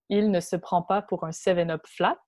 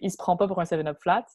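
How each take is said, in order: First: It is said in a standard French accent. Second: It is said in a Québécois French accent.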